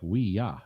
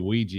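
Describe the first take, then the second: First: Said as two words ending in a 'y' sound. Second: Said as one word ending in a 'j' sound. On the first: It is the French and German words for yes. "to actually pronounce it would be like" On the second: It is the usual American way of saying it. "you say Ouija because we're a bunch of stupid Americans"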